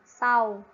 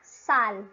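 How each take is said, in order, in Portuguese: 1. A consoante final soa como a vogal U. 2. A consoante final tem um som de L claro. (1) "ele normalmente tem o som de U em português" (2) "O L sempre tem som de L"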